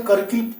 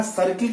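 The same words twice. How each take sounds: First: करकिल with a hard k replacing the first s; misread C as K. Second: Said in the usual way. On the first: Shown as a demonstration. Teacher shows learners a likely misreading, करकिल starting with k. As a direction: open करकिल on k, not s. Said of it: "सर्किल के बजाय". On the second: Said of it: "के बजाय करकिल".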